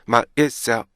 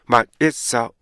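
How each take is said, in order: The two takes are said the same way.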